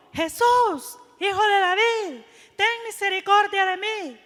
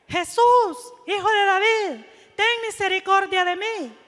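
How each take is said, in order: First: A blind beggar's raised cry to Jesus; calling out for mercy. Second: Insistent louder cry. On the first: Blind Bartimeo calls out to Jesus for mercy, a raised cry. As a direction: call out to him for mercy. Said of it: "él dijo". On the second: Hushed by the crowd, Bartimeo cries out to Jesus again, louder and insistent. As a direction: cry the plea again, louder and more urgent. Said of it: "él seguía e insistía". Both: Retold or imitated.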